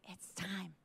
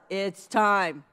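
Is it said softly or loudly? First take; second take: softly; loudly. First: It is said softly. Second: It is said a little louder.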